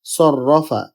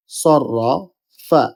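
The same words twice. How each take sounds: First: Said in the usual way. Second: Slow সররা, pause, then ফা; broken into syllables. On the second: Shown as a demonstration. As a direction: draw out সররাফা in separate parts. (সররা... ফা: ধীরে ভেঙে ভেঙে) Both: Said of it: "প্রথম হরফের সাথে এটা মিলিত হবে".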